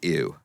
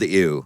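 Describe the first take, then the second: First: It is said at a normal volume. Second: It is yelled loudly.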